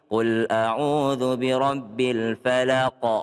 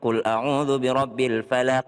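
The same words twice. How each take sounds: First: The final q is released with an o-like vowel. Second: The final q is released with an e-like vowel. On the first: The speaker calls it right. "pakai o" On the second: The speaker calls it wrong. "Jangan ... salah"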